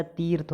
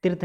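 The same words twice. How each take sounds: First: तीर्थ as "teerth"; long ee. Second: तीर्थ as clipped "tirth"; wrong short i. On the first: Teacher correcting students, long-ee तीर्थ. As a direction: hold the ee in तीर्थ. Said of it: "होता है". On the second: Teacher showing the error, short-i तीर्थ. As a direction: cut the vowel of तीर्थ short. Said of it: "नहीं होता है". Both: Shown as a demonstration.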